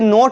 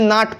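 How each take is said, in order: First: The vowel sounds like 'oh'. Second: The vowel sounds like 'ah'. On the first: The speaker calls it wrong. "इसे नोट नहीं पढ़ेंगे" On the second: The speaker calls it right. "नाट पढ़ेंगे"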